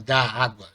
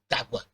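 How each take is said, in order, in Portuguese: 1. As duas palavras são ditas separadamente. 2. As duas palavras se juntam em um só grupo silábico. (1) "Você não fala da água" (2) "você fala d'água"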